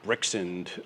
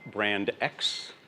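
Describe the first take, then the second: First: It is said as one word, Brixend. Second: It is said as two words, brand X. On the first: "by far the worst of the pronunciations" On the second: "it is not brand X"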